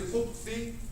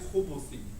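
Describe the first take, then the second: First: The b runs straight into th, no vowel. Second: A short vowel sounds between b and th. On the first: "you can say khubthi" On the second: "really correctly it's khubuthi"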